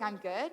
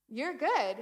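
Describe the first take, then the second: First: "I'm good?" at usual pitch, as a question; doubtful echo. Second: "You're good" higher, as a firm statement; confident verdict. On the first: Patient checking the doctor's verdict, "I'm good?" as a disbelieving question. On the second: Doctor clearing the patient, "You're good" said as an assured verdict. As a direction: pronounce "You're good" with a lifted, assured stress. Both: Retold or imitated.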